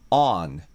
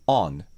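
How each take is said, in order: First: An American accent with a longer vowel. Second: A British accent with a shorter vowel. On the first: "アメリカ英語で読みたいなら、実際の音声はちょっと長めにして" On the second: "イギリス英語で読みたいなら、ちょっと口を縦にして、短めにして"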